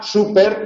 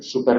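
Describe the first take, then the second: First: The word carries its own stress, standing apart. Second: The word is unstressed and runs into the next word. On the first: It is a noun, short for supermarket or a fuel grade. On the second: It works as a prefix meaning very.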